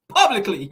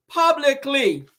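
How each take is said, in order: First: Said through a laugh; amused emphasis. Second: PUBLICLY drawn out slowly and higher; emphatic repeat. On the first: Host mocking a publicly miserable marriage, amused emphasis. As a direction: let a laugh lead into the word. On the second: Host driving home the public embarrassment, slow emphatic Publicly. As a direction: stretch every syllable of Publicly, pitched up. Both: Real, not acted.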